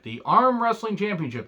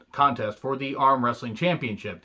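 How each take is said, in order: First: Pitched way up in disbelief; high, scoffing repeat of the title; mock incredulous. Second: Said in the usual way. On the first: Shown as a demonstration. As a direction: sell how absurd the title is. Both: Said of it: "they had championships for everything".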